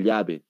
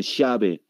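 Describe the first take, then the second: First: "llave" with a palatal LY sound; "llave" starting with a clear LY; Bolivian LL. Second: "llave" said as "shabe"; Argentine-style hushed LL in "llave". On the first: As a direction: say "llave" as "lyabe". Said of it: "En Perú no dicen". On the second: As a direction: start "llave" with SH. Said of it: "tampoco dicen". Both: Shown as a demonstration.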